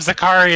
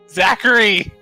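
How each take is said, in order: First: The name is said in a foreign-sounding, Japanese-like way. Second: The name is said in the usual English way. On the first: This is how others in the group say the name. The speaker calls it wrong. "everyone keeps calling him Zakari" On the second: This is the actual form of the name. The speaker calls it right. "It's Zachary"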